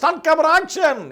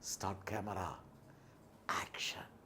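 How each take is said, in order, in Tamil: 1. அந்த சொற்றொடர் சத்தமாகச் சொல்லப்படுகிறது. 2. அந்த சொற்றொடர் மெதுவாகச் சொல்லப்படுகிறது.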